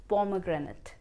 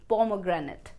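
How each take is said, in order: No difference in how they are said.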